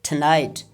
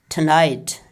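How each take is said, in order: The two takes are said the same way.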